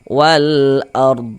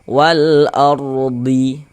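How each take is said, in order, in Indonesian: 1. Kata ini berakhir pada konsonan tanpa vokal. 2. Kata ini diakhiri dengan vokal pendek yang ditambahkan. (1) "Tapi kita sukunkan wal ard" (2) "jangan dibaca wal ardi baru berhenti, jangan"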